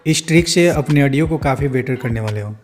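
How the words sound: It is said in a careless, poor way.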